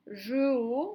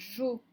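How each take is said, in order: First: The syllable is split into two separate parts. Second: The syllable is said as one single sound. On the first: The speaker calls it wrong. "on ne va pas dire je o" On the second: The speaker calls it right. "on va dire jo"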